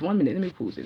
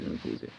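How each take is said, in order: First: Said in the usual way. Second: Breathy voiceless whisper of "let me pause it"; whispered aside. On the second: Real, not acted. Pausing her live for a caller, whispered to herself. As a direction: drop to a whisper mid-sentence.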